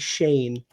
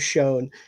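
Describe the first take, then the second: First: The vowel sounds like the one in 'rain'. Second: The vowel sounds like the one in 'bone'. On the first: The speaker calls it right. "it's actually Shane" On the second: The speaker calls it wrong. "So I pronounced it"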